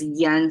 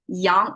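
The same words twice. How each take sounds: First: It is said with an English pronunciation. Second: It is said with a Chinese pronunciation. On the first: The speaker calls it wrong. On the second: The speaker calls it right.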